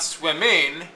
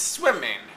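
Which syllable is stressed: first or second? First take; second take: second; first. First: The stress is on the second syllable. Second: The stress is on the first syllable. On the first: The speaker calls it wrong. "it's not swimming" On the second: The speaker calls it right. "the ing in this case, because it's a suffix, is unstressed"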